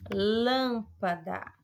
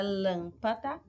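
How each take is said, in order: First: "lâmpada" slowly, with a long strong LÂM; stretched teacher's demo of "lâmpada", LÂM punched; stress on LÂM. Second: Said in the usual way. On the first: Shown as a demonstration. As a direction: hold the first syllable of "lâmpada", then pa-da. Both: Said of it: "é mais forte".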